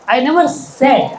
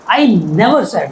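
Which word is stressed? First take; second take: said; never. First: The word 'said' carries the strongest stress. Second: The word 'never' carries the strongest stress. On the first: It was written, not spoken. "I just wrote it somewhere" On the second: It was never said at all. "Who told you?"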